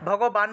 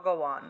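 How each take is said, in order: First: The middle consonant is said as a 'b' sound. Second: The middle consonant is said as a 'w' sound. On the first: The speaker calls it wrong. "যেটা ভুল করেছেন আগের জন, ভগবান বলেছেন" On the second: The speaker calls it right. "অন্তস্থ ব থাকলে আমরা কি ওয়া হিসেবে উচ্চারণ করব"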